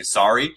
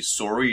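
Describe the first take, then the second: First: "sorry" with an open "sar" first vowel; American pronunciation. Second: "sorry" with a rounded "sore" first vowel; Canadian pronunciation. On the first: Host showing what Canadians don't say, American "sorry". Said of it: "you don't say sorry". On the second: Host contrasting Canadian and American speech, Canadian "sorry". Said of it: "like, Canadians say sorry". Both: Shown as a demonstration.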